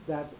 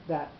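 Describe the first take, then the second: The two takes are said the same way.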